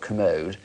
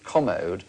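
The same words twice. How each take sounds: First: The stress is on the second syllable. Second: The stress is on the first syllable. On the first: It names a disguised bedroom toilet. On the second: It names an expensive, beautiful chest of drawers.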